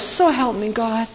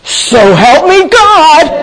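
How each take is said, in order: First: It sounds like a sincere, gentle prayer. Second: It sounds like an exasperated exclamation.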